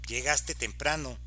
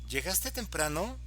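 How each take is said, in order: First: It is said in an annoyed, angry tone. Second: It is said as a curious question. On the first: The speaker is annoyed about the arrival time. "voy a mostrar enfado" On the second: The speaker is asking whether the listener arrived early. "en la primera una pregunta"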